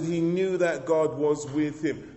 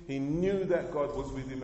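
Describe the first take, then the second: First: Slow, emphatic, leaning on knew; hammering the point home to church; repeated with emphasis. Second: Said in the usual way. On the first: Shown as a demonstration. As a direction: preach it again, slower, pressing on knew. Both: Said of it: "I said".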